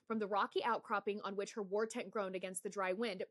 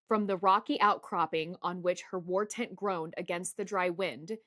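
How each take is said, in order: First: The passage is read at a fast pace. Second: The passage is read at a slow pace. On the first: This is the speed for reading to oneself. "I read pretty fucking fast" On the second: This is the speed required for a recording. "this is how it has to sound at one x"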